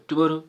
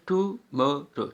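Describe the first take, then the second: First: Said in the usual way. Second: tomorrow slowly counted out in three beats; syllable by syllable. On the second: Shown as a demonstration. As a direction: separate टु, मा and रो in tomorrow. (Tomorrow को तीन हिस्सों में, धीरे) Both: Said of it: "one, टू, three हो गया".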